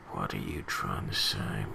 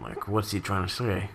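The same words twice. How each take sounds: First: Much lower and softer, as a mock grumble; low, quiet mock question to the absent writer; mock deep voice. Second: Said in the usual way. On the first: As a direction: drop the voice way down and put the question to him under your breath. Repeats the question, mock-addressing him.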